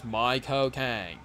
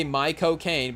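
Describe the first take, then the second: First: "My cocaine" slow, in a Cockney British accent; Michael Caine British accent. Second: Said in the usual way. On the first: Shown as a demonstration. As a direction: drawl "My cocaine" like a British film star. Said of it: "say it with a British accent". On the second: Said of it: "but then you say it with a British accent".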